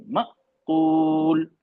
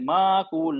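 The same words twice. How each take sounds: First: माकूल very slow, the sound cut off sharply at the hamza; correct hamza stop. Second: माकूल with the hamza bounced or jerked, not cut off; wrong pronunciation. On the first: Teacher shows the right reading, slow and clean stop. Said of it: "आवाज को बिल्कुल काट देंगे". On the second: Teacher shows how some people misread it, jerky hamza. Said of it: "कुछ लोग ऐसे पढ़ते हैं". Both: Shown as a demonstration.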